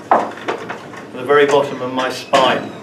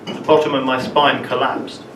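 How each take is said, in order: First: Very leaned on, slow and falling; slow, deliberate emphasis on very; stress on very. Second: Said in the usual way. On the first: Shown as a demonstration. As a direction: dwell on the word very.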